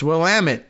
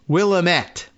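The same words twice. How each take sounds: First: The word ends rhyming with 'damn it'. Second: The word does not rhyme with 'damn it'. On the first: The speaker calls it right. "It's Willamette, damn it" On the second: The speaker calls it wrong. "even though it looks like you might want to uh, pronounce it as Willamette, which I'm sure I did first"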